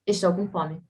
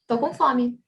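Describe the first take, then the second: First: The first word is said in full, two syllables. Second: The first word is shortened to one syllable. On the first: This is the full standard form. "instead of saying estou, we just say tô" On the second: This is the casual everyday form. "the common way to say is tô com fome"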